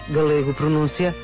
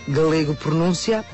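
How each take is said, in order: The two takes are said the same way.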